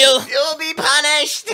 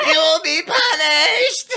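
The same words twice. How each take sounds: First: High, slow, laughing through the mock; high-pitched preacher boy. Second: Very high, slow, laughing shout; high-pitched preacher boy. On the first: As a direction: shriek it slowly while cracking up. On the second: Retold or imitated. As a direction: screech it, breaking into laughter. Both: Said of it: "It's like that high-pitched fucking".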